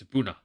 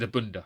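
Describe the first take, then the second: First: No d sound comes before the final vowel. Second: A d sound comes before the final vowel. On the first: The speaker calls it right. "It's Abuna" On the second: The speaker calls it wrong. "he said Abunda because he's an idiot"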